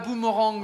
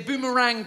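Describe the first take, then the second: First: It is pronounced with a French-style sound. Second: It is pronounced with an English-style sound. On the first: The speaker calls it wrong. "pas boomerang" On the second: The speaker calls it right. "c'est boomerang"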